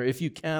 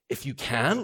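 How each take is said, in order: First: It stays level, continuing the sentence. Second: It rises like an incredulous question.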